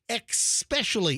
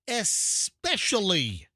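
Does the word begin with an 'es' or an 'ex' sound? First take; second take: ex; es. First: The word begins with an 'ex' sound. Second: The word begins with an 'es' sound. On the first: The speaker calls it wrong. "listen to the people that will say especially, E X" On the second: The speaker calls it right. "It's not, it's especially"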